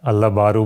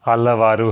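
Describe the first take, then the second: First: The consonant before the last syllable is b. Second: The consonant before the last syllable is v. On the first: The speaker calls it wrong. "अल्लाबारू बोलते हैं" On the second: The speaker calls it right. "अल्लावारू है।"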